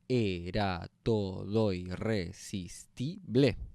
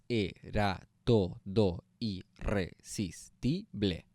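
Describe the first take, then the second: First: The vowels are run together, eight syllables. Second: Each syllable is said separately, nine in all.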